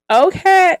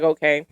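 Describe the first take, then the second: First: Much higher, louder, delighted "Okay"; light up at the compliment. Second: Said in the usual way. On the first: Retold or imitated. Reacting to a woman's compliment, delighted and high. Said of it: "you'd be like". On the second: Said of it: "I'd be like".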